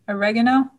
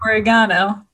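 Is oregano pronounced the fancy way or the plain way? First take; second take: plain; fancy. First: The word is said in a plain, everyday way. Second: The word is said in a fancier-sounding way. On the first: The speaker calls it wrong. "I'm pronouncing it wrong" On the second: The speaker calls it right. "Apparently it's oregano, but it just sounds too fancy for me"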